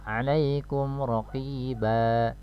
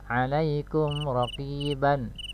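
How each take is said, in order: First: The last word ends with a long vowel. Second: The last word ends with an n sound. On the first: The reader stops at this word. "cara membaca wakafnya adalah" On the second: The reading continues without stopping. "raqiban ini fathahtain"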